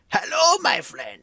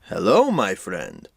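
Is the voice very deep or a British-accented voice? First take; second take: British-accented; very deep. First: It is said in a British-accented voice. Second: It is said in a very deep voice.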